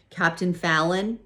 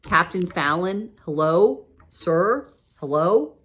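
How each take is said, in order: First: Raised call, higher and louder. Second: Loud, high, insistent calls; girl shouting at a sleeping captain to wake up; calling out loud. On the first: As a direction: call his name across the room to wake him. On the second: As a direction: lean over the desk and shout to wake him. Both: A narrator's reading. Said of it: "I called louder".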